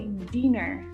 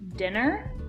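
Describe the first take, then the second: First: It imitates the listener's non-native accent. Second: It is said in a native American accent. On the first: This is how the other person says it. "you say dinner" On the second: This is the usual local way to say it. "instead of dinner"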